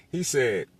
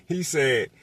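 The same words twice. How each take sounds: The two takes are said the same way.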